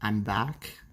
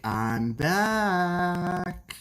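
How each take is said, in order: First: Said in the usual way. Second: High, dramatic catchphrase delivery; sitcom catchphrase. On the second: Retold or imitated. Streamer hams up a sitcom catchphrase for chat. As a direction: deliver it like a sitcom character's big entrance. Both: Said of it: "a catchphrase for a sitcom or drama character".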